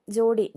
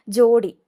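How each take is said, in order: First: Said in the usual way. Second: ജോഡി called out much louder; announced word. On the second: Shown as a demonstration. Teacher announcing the word to students, loudly. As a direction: call out ജോഡി sharply and loudly. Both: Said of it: "ഡാ നോക്കിക്കോണം".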